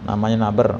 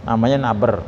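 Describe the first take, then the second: The two takes are said the same way.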